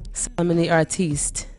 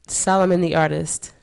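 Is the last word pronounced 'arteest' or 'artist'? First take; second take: arteest; artist. First: The last word ends in a long 'eest' sound. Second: The last word ends in a short 'ist' sound. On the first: The speaker calls it right. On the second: The speaker calls it wrong.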